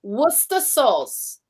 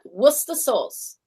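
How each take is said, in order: First: Worcester said slowly as "wooster"; teaching Worcester sauce; slow demo. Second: Worcester said softly as "wooster"; quiet teaching Worcester sauce; repeat demo. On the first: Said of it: "now say Worcester". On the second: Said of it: "Just say it like that". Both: Shown as a demonstration.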